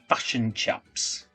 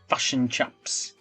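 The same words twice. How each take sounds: First: The vowels are said in a New Zealand accent. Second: The vowels are said in a New Zealand accent.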